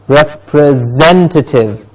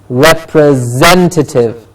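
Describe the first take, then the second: First: The ending is said as 'tative'. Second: The same.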